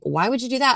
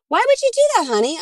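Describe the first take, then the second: First: It is said in a harsh, accusing tone. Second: It is said in a warm, loving tone.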